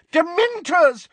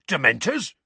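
First: DEMENTORS cried high and loud, falling; furious cry. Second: Rising, disbelieving question; aghast. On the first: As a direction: hurl out the word as an accusation. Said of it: "cried Missus Figg". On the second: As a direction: echo the word in shocked disbelief. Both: A narrator's reading.

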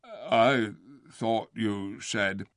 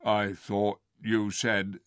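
First: Very slow, dull bear; slow, puzzled. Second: Slow puzzled. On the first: Acted. Bear questioning the ape, very slow. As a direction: drag each word like a slow bear. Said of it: "slow, puzzled voice". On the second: A narrator's reading. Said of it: "began the bear".

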